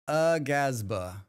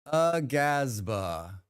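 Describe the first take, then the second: First: Slow "Agasba" with a clear ah; decided, drawn-out "Agasba"; chosen pronunciation. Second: Slow "Agasba" with a rise; tentative, drawn-out "Agasba"; trying a pronunciation. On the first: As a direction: settle on "Agasba", ah vowel stressed. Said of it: "I'm going with the ah". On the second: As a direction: sound out "Agasba" syllable by syllable. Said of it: "instead of ah". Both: Shown as a demonstration.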